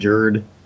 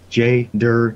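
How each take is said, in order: First: It is squashed into one syllable, 'jerd'. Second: The letter J is said, then 'dur'. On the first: The speaker calls it wrong. "not Jerd" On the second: The speaker calls it right. "it's J Dur"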